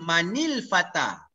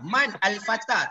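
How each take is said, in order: First: The words run together with an added linking vowel. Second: The first word ends and stops before the second. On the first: "Kalau kita nak baca sambung" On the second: "Kalau kita baca berhenti mungkin mudah"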